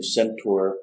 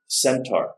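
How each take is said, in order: First: Centaur said sen-TOR; "centaur" with a rounded OR ending; alternative pronunciation. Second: Centaur said SEN-tar; "centaur" with an open AR ending; pronunciation variant. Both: Shown as a demonstration. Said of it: "however you want to pronounce that".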